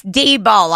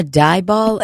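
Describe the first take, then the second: First: D-Ball with DEE as the first syllable; corrected surname. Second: Dieball with DIE as the first syllable; mispronounced surname. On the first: Woman correcting the process server, D-Ball said as "dee-ball". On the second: Process server checking a name, Dieball said wrongly as "die-ball". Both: Acted. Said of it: "it's actually D-Ball".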